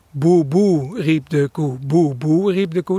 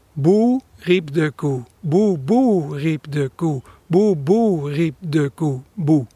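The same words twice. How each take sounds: First: Houtduif coo opening on a double "Boe, boe"; imitated dove mnemonic. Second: Slow coo starting on a single falling "Boe"; imitated real dove song. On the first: Birder showing how everyone thinks the dove sounds, cooed mnemonic. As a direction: chant "Boe, boe, riep de koe" as a cooing phrase. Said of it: "dan denkt iedereen, ja, zo klinkt het". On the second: Birder showing how the dove really sings, slow cooed chant. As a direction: chant it in drawn-out coos, ending on a lone "Boe". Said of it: "hij zingt eigenlijk". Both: Shown as a demonstration.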